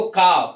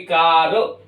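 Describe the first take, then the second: First: का with no r at the end; English silent r. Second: कार with a drawn-out, fully sounded final r; louder Hindi कार, ending on a clear r; Hindi-style r. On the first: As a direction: say car the English way as का, r dropped. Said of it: "English में इसको का करके". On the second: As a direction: say कार with the r spelled out. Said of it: "नहीं, ये हिंदी का वे है बोलना". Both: Shown as a demonstration.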